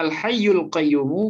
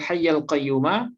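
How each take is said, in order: First: The words end with an 'u' vowel. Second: The words end with an 'a' vowel. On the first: It is the predicate of an unstated pronoun 'he'. "yang biasanya dibaca Al-Hayyul Qayyumu" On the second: It is a descriptive attribute of God. "kemudian kita baca Al-Hayyal Qayyumah"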